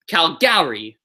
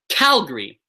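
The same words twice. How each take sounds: First: The stress is on a later syllable. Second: The stress is on the first syllable. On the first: The speaker calls it wrong. "I would never ever say Calgary" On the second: The speaker calls it right. "So the Cal is the loudest part of the word"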